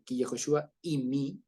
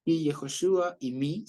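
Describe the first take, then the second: First: Ki Yehoshua y mi said slowly and evenly; teacher repeats the phrase, slow; careful Hebrew. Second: Ki Yehoshua y mi said slowly, rising at the end; teacher models the phrase, slow; careful Hebrew. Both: Shown as a demonstration. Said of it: "es una frase muy bonita".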